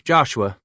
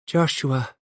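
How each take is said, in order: First: Said in the usual way. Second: Put-on "Joshua" chimed higher, with a light Spanish accent; imitation English. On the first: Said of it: "imitation English". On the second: A narrator's reading. Mexican wife echoing the baby's name in light Spanish accent. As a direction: sing "Joshua" like a Spanish speaker copying English. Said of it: "she chimed in imitation English".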